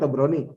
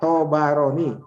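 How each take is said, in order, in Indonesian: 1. Nama itu diucapkan tanpa vokal di antara 'b' dan 'r'. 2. Nama itu diucapkan dengan vokal di antara 'b' dan 'r'. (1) "Mohon jangan membaca Tobroni" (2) "Yang benar Tobaroni"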